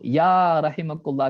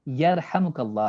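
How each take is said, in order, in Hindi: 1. यह 'ya' से शुरू होता है और बीच का अक्षर 'him' है। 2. यह 'yar' से शुरू होता है और बीच का अक्षर 'ham' है। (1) "ये सही नहीं है, या नहीं है वहां पर" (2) "यरहमुकल्लाह है"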